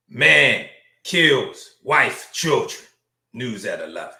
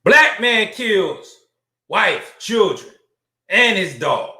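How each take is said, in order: First: Slow, hushed newsreader, dropping low at the end; understated news headline. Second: Slow, punched-up newsreader voice; emphatic news headline. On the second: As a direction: hammer out each item of the headline slowly. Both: Acted.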